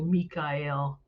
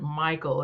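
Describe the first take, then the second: First: It is said as Mi-ka-el, in three syllables. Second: It is said like the common English Michael. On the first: The speaker calls it right. "It's really Mikael" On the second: The speaker calls it wrong. "We mispronounce that. We call it Michael"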